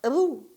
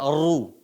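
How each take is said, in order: First: The r sound is thin and light. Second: The r sound is thick and heavy. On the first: The speaker calls it wrong. "bukan dibaca ru" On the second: The speaker calls it right. "Tapi dibaca ru"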